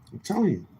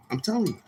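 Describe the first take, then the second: First: Much higher again, trailing down; high insistent I'm telling you with a drop; emphatic insistence. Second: Much higher, pleading insistence; high, exasperated I'm telling you; emphatic insistence. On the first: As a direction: repeat it, falling off at the end. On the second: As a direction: plead that it's true. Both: Real, not acted. Emphatic repetition.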